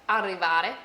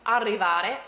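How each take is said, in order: Both takes have the same delivery.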